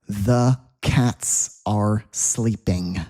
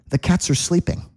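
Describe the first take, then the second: First: The sentence is spoken at a normal pace. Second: The sentence is spoken quickly.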